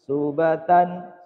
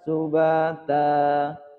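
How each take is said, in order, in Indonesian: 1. Kata itu berakhir dengan bunyi n. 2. Kata itu berakhir dengan vokal terbuka.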